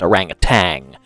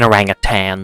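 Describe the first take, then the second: First: The word ends with a final g sound. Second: The word ends without a final g sound. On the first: The speaker calls it wrong. "Everybody pronounces it orangutan because of the British accent" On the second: The speaker calls it right. "there's no G on the end of it"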